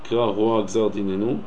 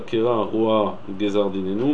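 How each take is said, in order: First: Roa and gzar run together in one breath. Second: There is a break between roa and gzar. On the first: The speaker calls it right. "qu'il faut dire roa gzar en une seule fois, c'est-à-dire" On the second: The speaker calls it wrong.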